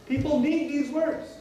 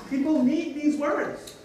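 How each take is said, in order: Both takes have the same delivery.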